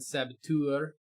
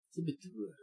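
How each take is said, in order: First: Said in the usual way. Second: Saboteur softly, with a French spin; French accent. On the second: Pretend. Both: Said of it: "Gotta throw some French spin on that".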